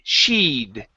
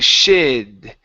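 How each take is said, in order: First: The vowel is a long 'ee' sound. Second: The vowel is short, like in 'sid'. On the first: The speaker calls it right. "it's E, E, E. Push the tongue up a little higher" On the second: The speaker calls it wrong. "So you're saying shid"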